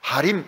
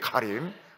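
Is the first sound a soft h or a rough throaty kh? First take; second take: soft h; throaty kh. First: It begins with a soft breathy h sound. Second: It begins with a rough throaty kh sound. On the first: The speaker calls it wrong. "히읗이라는 게 하림 이런 게 없습니다" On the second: The speaker calls it right. "우리 키읔하고 히읗하고 중간이기 때문에"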